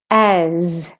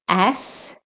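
First: "as" long, with buzzing z; teacher's drawn-out "as" with final z; voiced Z ending. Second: "ass" ending in hissed s; teacher's clear "ass" with final s; voiceless S ending. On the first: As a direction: end "as" on a voiced z. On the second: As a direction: end "ass" on an unvoiced s. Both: Shown as a demonstration. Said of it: "when the S says S or the S says Z".

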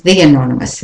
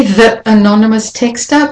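First: "the" as thee before "anonymous"; linking the. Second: "the" as thuh before "anonymous"; weak form of the. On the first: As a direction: use an ee vowel in "the", gliding into "anonymous". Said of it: "it becomes". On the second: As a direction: keep a neutral uh in "the", then "anonymous texter". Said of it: "Now you can say". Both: Shown as a demonstration.

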